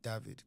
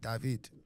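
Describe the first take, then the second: First: The name is said the southern African way. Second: The name is said the French way. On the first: "in southern part of Africa, it's like David" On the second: "in Paris, they'd be like David"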